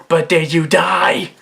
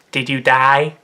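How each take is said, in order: First: Slow, louder comic comeback; Mister Chow. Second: Lightly put-on comic voice, slightly low; deadpan comic question in a character voice; Mister Chow. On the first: Retold or imitated. Dismissing a dinosaur attack, emphatic Mister Chow impression. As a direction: push the question out slowly and loudly. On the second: Asking the uncle waking in hospital, Mister Chow impression. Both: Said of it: "Mister Chow".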